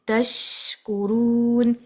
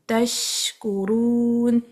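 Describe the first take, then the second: Both takes have the same delivery.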